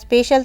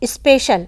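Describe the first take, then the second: First: The word begins directly with the 's' sound. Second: An extra 'i' vowel comes before the 's'.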